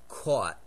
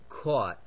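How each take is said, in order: First: The word is said in a northeastern accent. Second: The word is said in a northeastern accent.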